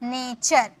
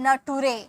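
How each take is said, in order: First: The ending is said as 'cher'. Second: The ending is said as 'too-ray'. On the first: The speaker calls it right. "इसे नेचर, T U R E यानी कि चर" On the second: The speaker calls it wrong. "बहुत सारे student इसे टूरे पढ़ते हैं"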